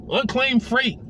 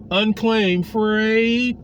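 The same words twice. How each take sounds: First: Said in the usual way. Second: Unclaimed Freight drawn out very slowly; slow emphasis. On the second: Shown as a demonstration. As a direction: stretch out Freight, each word deliberate.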